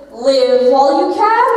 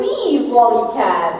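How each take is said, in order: First: "Live" said as short-i liv, rising on "can"; "Live" clearly liv, not leeve. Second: "Leave" stretched as a long leeve, falling at the end; "Leave" clearly leeve, not liv. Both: Shown as a demonstration. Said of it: "Is she saying".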